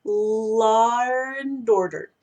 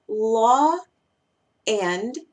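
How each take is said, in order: First: "law and order" run together with an R sliding in after "law"; "law and" blended as "lawr and"; linked with intrusive R. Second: "law" and "and" kept apart, no R between. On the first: Teacher to students, linking the words with an intrusive R. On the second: Teacher to students, saying the two words separately. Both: Shown as a demonstration. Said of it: "yo voy a tender a decir law and order".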